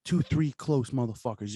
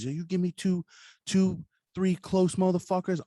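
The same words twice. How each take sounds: First: Said in the usual way. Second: Higher, slower, punchier retake; emphatic repeat. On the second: Retold or imitated. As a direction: lean in hard on the repeat. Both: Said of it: "He's like".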